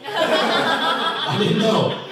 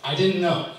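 First: Much higher, slow and louder, laughing through it; laughing emphasis. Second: Said in the usual way. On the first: Real, not acted. Comic repeats the admission to the crowd, laughing. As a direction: stretch it out laughing at yourself.

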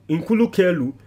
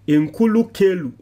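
Both takes have the same delivery.

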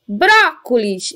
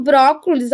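First: Brócolis called out slowly, BRÓ stretched long; stress on BRÓ. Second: Said in the usual way. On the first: Shown as a demonstration. Teacher calling the word to find its syllable, Brócolis stretched on BRÓ. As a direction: hold the strong BRÓ in Brócolis. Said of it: "chamar essa palavra". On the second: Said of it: "eu nem preciso chamar essa palavra".

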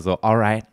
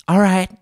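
First: Said in the usual way. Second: "alright" thrown up high and loud; a posh, exaggerated "alright"; hammed-up British alright; mock British alright. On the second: Shown as a demonstration. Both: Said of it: "wenn man das auch so sagen würde".

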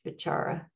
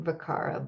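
First: Vichara with a ch sound for the c; correct Pali pronunciation. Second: Vikara with a hard k sound for the c; mispronounced by spelling. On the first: Meditation teacher correcting the spelling-based reading, Pali pronunciation. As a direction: say Vichara with CH, as in chart. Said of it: "always pronounced C H". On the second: Meditation teacher showing the misleading spelling, misread pronunciation. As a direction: say Vikara as if the C were a K. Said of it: "even though it looks like". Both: Shown as a demonstration.

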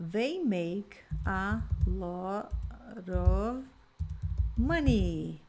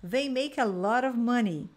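First: Very slow, careful modelling; slow model sentence. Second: Said in the usual way. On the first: Shown as a demonstration. Teacher modelling a sentence for students, very slow. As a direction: drag each word out for the learners. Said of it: "Então, ó". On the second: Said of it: "Então".

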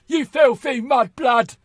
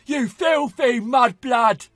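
First: Slow, loud, higher sneer; Bellatrix voice. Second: Slow, loud, higher sneering shout; Bellatrix shout. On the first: Shown as a demonstration. Gamer shows his Bellatrix voice, slow and sneering. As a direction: spit out the insult slowly, sneering. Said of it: "I'd have this voice". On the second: Retold or imitated. Gamer quotes Bellatrix from the films, slow sneering shout. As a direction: scream the insult slowly like a mad witch. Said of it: "Bellatrix makes me chuckle".

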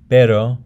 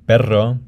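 First: Pero with a single tap of R; flapped R. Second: Perro with a rolled rr; trilled double R. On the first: Teacher shows the intervocalic R, flapped. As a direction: tap the R in pero just once. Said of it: "The intervocalic is a flap". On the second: Teacher shows the double R, trilled. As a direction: roll the rr in perro. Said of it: "double R is also trilled". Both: Shown as a demonstration.

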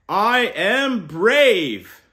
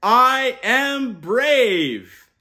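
First: Slow, loud, higher proud declaration; proud affirmation. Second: Very slow, loud and higher; rousing call to repeat. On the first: Uncle modelling the affirmation for kids, slow and proud. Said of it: "we start the week with". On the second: Uncle leading kids to repeat, loud and slow. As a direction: stretch it out big so kids join in. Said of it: "Repeat after me". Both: Shown as a demonstration.

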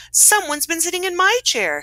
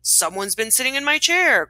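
First: High-pitched storybook mother bear; Mama Bear. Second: Lightly voiced Papa Bear; a hint of growling storybook bear; mild growl. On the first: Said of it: "said the Mama Bear". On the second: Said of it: "growled the Papa Bear". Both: A narrator's reading.

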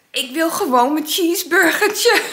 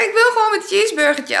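First: Laughing. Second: Insisting. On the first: Laughing version before repeat. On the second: Insists to the police. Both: Retold or imitated.

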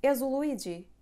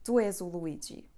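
First: És o Luigi raised high and louder, falling off the end; question intonation. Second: Said in the usual way. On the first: Shown as a demonstration. Teacher showing students a question by intonation only, raised pitch. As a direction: lift the pitch on És to make it a question. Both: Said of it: "We just change the intonation".

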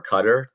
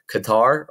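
First: Qatar like "cutter", stressed on the first syllable; alternative pronunciation. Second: Qatar stressed on the second syllable, "kuh-TAR"; alternative pronunciation. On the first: Geography teacher offers the other way to say the country, Qatar as CUT-er. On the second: Geography teacher offers one way to say the country, Qatar as kuh-TAR. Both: Shown as a demonstration. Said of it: "depending on how you wanna say it".

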